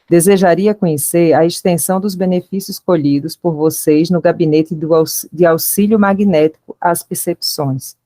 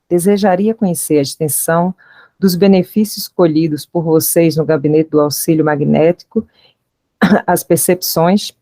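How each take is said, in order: First: It is said as a falling statement. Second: It is said with a questioning rise.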